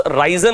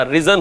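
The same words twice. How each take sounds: First: राइजन said RAI-zan with a long ai diphthong; the mistaken राइजन, first vowel stretched into ai; wrong pronunciation. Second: रिजन said RI-zan with a short i; the right रिजन, short clipped first vowel; correct pronunciation. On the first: Teacher showing the wrong राइजन with an ai vowel. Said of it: "राइजन नहीं होता". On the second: Teacher giving the correct रिजन with a short i. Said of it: "रिजन होता है". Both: Shown as a demonstration.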